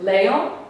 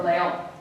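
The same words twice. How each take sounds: First: Leon as LE-on, slow with questioning rise; misplaced stress on first syllable. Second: Leon as le-ON, ending emphasised; stress on last syllable. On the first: Teacher asks is it this way, first-syllable stress in Leon. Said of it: "It's not leon". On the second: Teacher gives the second option, final-syllable stress in leon. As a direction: put the weight on the ON of leon. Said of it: "It's on the last syllable". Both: Shown as a demonstration.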